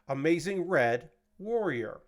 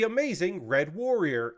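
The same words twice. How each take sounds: First: The pause comes after the word Red. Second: The pause comes after the word Amazing. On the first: The name refers to a wrestler called Amazing Red. The speaker calls it wrong. "I put the pause after uh, Red" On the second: The name is a warrior that is amazing and red. The speaker calls it right. "is how you would say it"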